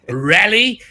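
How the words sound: The name is said with a South African pronunciation. "In South Africa, we would say rally"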